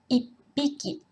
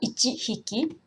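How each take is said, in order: First: It is contracted with a doubled p sound. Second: It is said in full as two words. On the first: The speaker calls it right. "la prononciation change un peu. Donc, ça fait ippiki" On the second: The speaker calls it wrong. "ce n'est pas ichi hiki"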